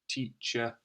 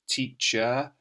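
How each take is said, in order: First: It ends with a short, weak 'uh' sound. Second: It ends with a strong, clear 'er' sound. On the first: "we just say" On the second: "We could say"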